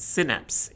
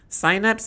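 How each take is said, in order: First: The word is said the American way. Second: The word is said the British way. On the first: "synapse is the American pronunciation" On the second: "Synapse is the British pronunciation"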